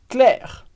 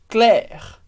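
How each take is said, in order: Both takes have the same delivery.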